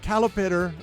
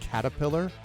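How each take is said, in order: First: The word has l then t sounds, swapped around. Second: The word has t then l sounds, in standard order. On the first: The speaker calls it wrong. "which I always pronounced calipitter" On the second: The speaker calls it right. "saying the word caterpillar"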